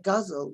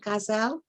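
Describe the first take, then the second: First: The word is said with an English pronunciation. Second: The word is said with a Persian pronunciation. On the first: "the English say guzzle, which sounds ridiculous" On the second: "I use the Persian pronunciation"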